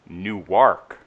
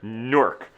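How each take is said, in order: First: The word is said as two syllables. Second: The word is said as one syllable. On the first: This is how it is said in Delaware. "not only is there two syllables" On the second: This is how it is said in New Jersey. "it's like it's all one, no no syllables"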